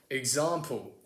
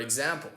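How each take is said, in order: First: Example with a long ah, ig-zahm-pul; British example. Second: Example with a flat a, ig-zam-pul; American example. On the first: American imitating how British people say it, long ah. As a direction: say example with a broad ah. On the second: American host setting up the comparison, flat a. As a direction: say example with a short front a. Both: Shown as a demonstration. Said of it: "I think British people would say it like".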